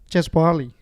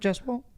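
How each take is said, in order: First: The name is said with three syllables. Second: The name is said with two syllables. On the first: This imitates someone's mispronunciation of the name. The speaker calls it wrong. "One of the greatest ones I think he's ever mispronounced" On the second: This is how the name is properly said. The speaker calls it right. "Not not Jaswal"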